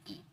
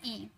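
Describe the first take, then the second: First: ई drawn out long, "eee"; long vowel. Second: ई clipped short and quick; short vowel. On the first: Teacher contrasts a long, stretched ई for students. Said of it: "इसे थोड़ा सा टान कर लिया जाता है". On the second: Teacher contrasts a short, quick ई for students. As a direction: say ई quickly, don't stretch it. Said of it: "तुरंत जल्दी में लिया जाता है". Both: Shown as a demonstration.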